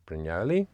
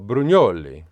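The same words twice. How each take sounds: First: The name is pronounced the English way. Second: The name is pronounced the Italian way. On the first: "they are British, so they just say they just pronounce it Brugnoli" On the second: "I thought it's very Italian"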